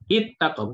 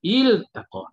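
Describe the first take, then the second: First: The l sound is merged into the t. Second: The l sound is pronounced clearly before t. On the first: The speaker calls it wrong. "Bukannya uh, it it taqa, bukan" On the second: The speaker calls it right. "Jelas pada lam itu jelas"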